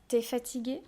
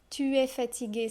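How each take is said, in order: First: The vowel of tu is dropped. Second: The vowel of tu is fully pronounced.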